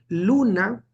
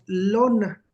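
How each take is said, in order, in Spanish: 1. La primera vocal suena como u. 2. La primera vocal suena como o.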